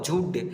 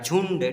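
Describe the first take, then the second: First: It is said with no nasal sound before d. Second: It is said with a nasal sound before d. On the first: "झ में छोटी की मात्रा झूड" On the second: "यहाँ पर अंक की मात्रा है झुंड"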